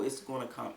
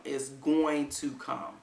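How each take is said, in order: First: Said in the usual way. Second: Slow, deliberate "going to come"; firm, drawn-out stress on "going to"; emphatic. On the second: Real, not acted. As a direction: spell out "going to" in full, word by word. Slowed emphatic repeat of promise.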